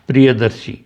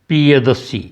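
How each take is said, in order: Both takes have the same delivery.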